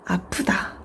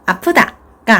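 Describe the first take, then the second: First: It is said with a pained feeling. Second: It is said cheerfully, with a smile. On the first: The speaker calls it right. "이렇게 감정을 실어서 얘기해 주는 것이 필요합니다" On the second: The speaker calls it wrong. "웃으면서 아프다가 아니라"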